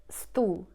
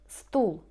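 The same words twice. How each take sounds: No difference in how they are said.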